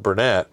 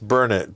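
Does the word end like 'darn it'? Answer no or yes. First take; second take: no; yes. First: The word does not end like 'darn it'. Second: The word ends like 'darn it'. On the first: The speaker calls it wrong. "is not Burnett" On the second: The speaker calls it right. "It's Burnett, darn it. Learn it"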